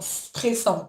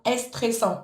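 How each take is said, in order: First: The word starts directly with the s sound. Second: An extra vowel sound comes before the s. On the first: The speaker calls it right. "stressant directement, sans le est au début" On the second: The speaker calls it wrong. "tu le prononces un petit peu comme en espagnol"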